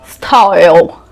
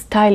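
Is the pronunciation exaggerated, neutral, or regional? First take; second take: exaggerated; neutral. First: It is said with an exaggerated, put-on foreign accent. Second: It is said with a plain, neutral pronunciation. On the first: The speaker calls it wrong. "if you have an accent, you'll say style. Again, looks fake" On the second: The speaker calls it right. "It is style"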